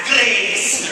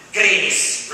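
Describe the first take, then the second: First: "Grace" with a rolled Scottish r, said big; Scottish accent. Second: Said in the usual way. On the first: Shown as a demonstration. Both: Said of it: "you should say it with that Scottish accent".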